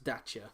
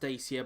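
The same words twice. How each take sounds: First: The name is said the Romanian way. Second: The name is said the British way. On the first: "I know in Romania where it's built, it's pronounced Dacia" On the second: "It's over it's pronounced Dacia"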